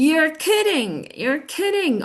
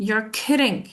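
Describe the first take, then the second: First: Higher, excited disbelief. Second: Unexcited disbelief. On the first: Teacher shows a happy reaction, excited. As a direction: react to great news, pitched up. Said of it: "I'm excited". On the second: Teacher contrasts it with excitement, unimpressed disbelief. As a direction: say it without excitement, doubting. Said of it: "but if I say". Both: Shown as a demonstration.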